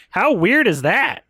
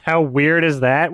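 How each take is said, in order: First: Sarcastic mock reading of "How weird is that?"; mocking the line. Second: Said in the usual way. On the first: Shown as a demonstration. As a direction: parrot the line to show how bad it is. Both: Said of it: "What a fucking awful line".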